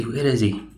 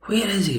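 First: Said in the usual way. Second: Higher mock call, searching. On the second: Friends hunting for their missing companion, a light high call.

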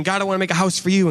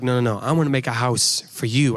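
First: Quick, a touch higher, David pleading with God; eager David. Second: God correcting. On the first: David eagerly offering God a house, a touch higher and quick. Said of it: "So David is saying". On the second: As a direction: calmly turn the offer around. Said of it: "And God's like". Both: Retold or imitated.

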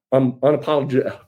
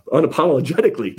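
First: Unapologe- cut off halfway through the word; stumbled word. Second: Unapologetically said whole and clean; word fixed. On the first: Candidate fumbling unapologe- before getting it, a stumble. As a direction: trip on unapologe- and break off. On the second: Candidate landing unapologetically on the retry, clean and whole. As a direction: get unapologetically out in one go. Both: Real, not acted. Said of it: "there we go, I got it".

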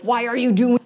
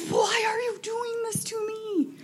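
First: Loud, raised mock-frustrated cry; frustrated outburst. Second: High, drawn-out wail, hammed up; mock desperate wail. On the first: Parent frustrated with the child, loud mock outburst. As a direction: blurt it out loud in mock exasperation. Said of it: "she probably already knew I was frustrated". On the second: New parent to five-day-old baby, mock desperate wail.

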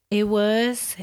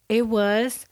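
The two takes are said the same way.

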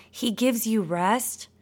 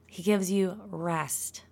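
First: Said in the usual way. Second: Calm and slow. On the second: Shown as a demonstration. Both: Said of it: "Can we just take a deep breath".

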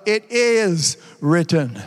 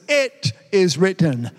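First: "is" leaned on hard, slow and low; slow, deliberate "It IS written"; stress on IS. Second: "It" hit first and hardest, slow; slow "IT is written", opening word punched; stress on IT. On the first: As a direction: land the weight on "is" in "It is written". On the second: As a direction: put the weight on "It" in "It is written". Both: Shown as a demonstration. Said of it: "I'm gonna change the emphasis".

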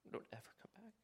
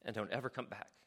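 First: A softer, dead-serious whispered warning; whispered echo of the command; hushed whisper. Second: Said in the usual way. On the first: Shown as a demonstration. Jesus' command echoed in a whisper.

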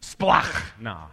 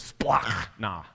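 First: Splachna with a spat, throaty kh, louder; spit it out. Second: Splachna said slowly, ch as a throaty kh; splachna: splakh-na, spat out from the throat; Greek pronunciation. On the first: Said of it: "you have to spit". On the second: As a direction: splachna with a hard, spitting kh in the middle. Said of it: "That's the way you say it". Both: Shown as a demonstration.

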